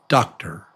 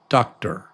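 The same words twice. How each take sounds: First: The second vowel is reduced to a quick schwa. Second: The same.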